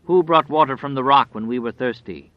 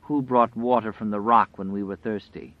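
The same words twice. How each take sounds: First: Loud, lightly voiced catechism question; wolf's questioning voice. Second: Understated quaver, at an everyday level. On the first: Grinning wolf questioning itself in two voices, loud questioning. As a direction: demand it like a leader of a litany. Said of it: "began to speak in two voices". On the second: Waking woman repeating the wolf's question, mildly quavering. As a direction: ask it with a slight quaver, unforced. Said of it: "cried in a great and quavering voice". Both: A narrator's reading.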